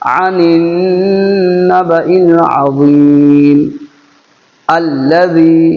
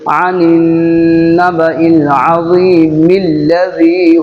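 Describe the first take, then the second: First: There is a stop before alladhi. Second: Azeem runs straight into alladhi without a stop. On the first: The verse ending is observed. "लेकिन आयत कर दिया तो अब क्या होगा? अल्लज़ी।" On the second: The reader continues past the verse ending. "अगर आयत नहीं करते, सांस आपकी लंबी है, तो आप ऐसे पढ़ते"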